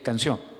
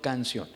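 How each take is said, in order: First: The stress is on the last syllable. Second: The stress is on the first syllable. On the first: The speaker calls it right. "sabemos que es canción" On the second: The speaker calls it wrong. "no canción"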